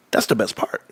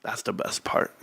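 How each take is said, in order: First: Whispered repeat of his glee. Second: Whispered, savouring "best part"; whispered glee at being right. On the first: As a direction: hush it out, still grinning. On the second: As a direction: breathe it like a secret. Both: Real, not acted. Savouring vindication.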